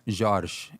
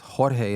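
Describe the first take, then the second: First: The name is said with Portuguese pronunciation. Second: The name is said with Spanish pronunciation. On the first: "Jorge in Portuguese" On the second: "it's Jorge in Spanish"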